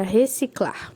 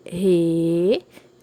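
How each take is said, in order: First: Said in the usual way. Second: "Reciclar" loud, each syllable stretched and set apart; split into syllables. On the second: Shown as a demonstration. Teacher separating a word for pupils, "Reciclar" syllable by syllable. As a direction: break "Reciclar" into three long, low blocks with clear gaps. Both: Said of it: "Vamos separar".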